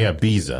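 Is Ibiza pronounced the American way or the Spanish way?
American. It is said the American way. This is how people at home say it. "but we say Ibiza"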